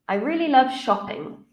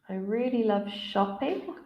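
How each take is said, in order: First: The voice falls at the end. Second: The voice rises at the end.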